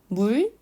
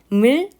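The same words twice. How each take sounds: First: The vowel is made with rounded lips. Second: The vowel is spread, with unrounded lips. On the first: "입모양이 아주 동그랗게 모여진 상태로" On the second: "발음이 조금 더 수고스럽게 입술이 여러 번 움직여야 되는데"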